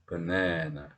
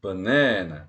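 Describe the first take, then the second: First: "banana" low and soft, middle NA still long; long low stressed syllable. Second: "banana" with a long, firm middle NA; lengthened stressed syllable. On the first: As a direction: keep the second syllable of "banana" drawn out at a low pitch. (banana의 둘째 음절을 낮고 여리게, 그러나 길게) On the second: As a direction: draw out the second syllable of "banana", then fall. (banana의 둘째 음절을 또렷하고 길게) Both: Shown as a demonstration. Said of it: "더 길게라는 속성은 달라지지가 않아요".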